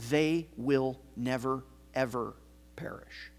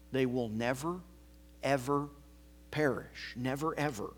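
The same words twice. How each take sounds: First: "never, ever" stressed, "perish" fading to a whisper; emphatic never ever. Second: "never" and "ever" marked softly, falling away; a quieter, tender repeat of "never, ever"; understated emphasis, soft close; gentle emphasis. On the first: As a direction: lean on "never" and "ever", let "perish" drop almost to a whisper. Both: Shown as a demonstration. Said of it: "It's meant to be an emphasis".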